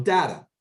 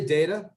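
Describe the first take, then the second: First: "data" with short A, as DAT-a, falling; dat-a variant. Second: "data" said DAY-ta, rising at the end; day-ta variant. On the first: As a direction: say "data" to start like "dad". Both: Shown as a demonstration. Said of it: "Some say".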